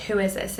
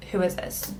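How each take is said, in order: First: Said in the usual way. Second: Whispered, soft and wondering; puzzled whisper. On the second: Retold or imitated. Staring at a stranger's message, whispering to herself. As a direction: breathe the question to yourself.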